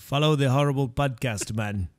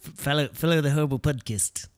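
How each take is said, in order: First: Mock Caribbean lilt; Caribbean-sounding accent. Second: Mock New Zealand accent; Kiwi accent. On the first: Co-host trying the podcast plug, mock Caribbean accent. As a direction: botch Aussie into a Caribbean accent. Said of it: "everything I do sounds Caribbean". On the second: Co-host retrying the plug, Kiwi accent. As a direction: squeeze the vowels like a New Zealander. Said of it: "That's Kiwi".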